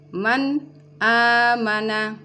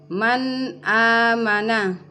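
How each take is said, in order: First: The n is cut off before the vowel. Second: The n is clear and flows into the vowel. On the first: The speaker calls it wrong. "nun sukun diputuskan sebelum masuk di hamzah" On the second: The speaker calls it right. "nun sukunnya di sini kita baca dengan jelas"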